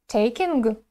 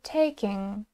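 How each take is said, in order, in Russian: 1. Слово заканчивается отчетливо слышимым звуком г. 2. Слово заканчивается звуком н, без г. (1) "такого не должно быть, да, это неправильно" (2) "мы заканчиваем произносить слово э, на n"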